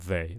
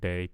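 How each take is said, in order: First: The word starts with a soft th sound. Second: The word starts with a hard d sound. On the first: The speaker calls it right. "we want they, they. So tongue between the teeth" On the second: The speaker calls it wrong. "I'm hearing day"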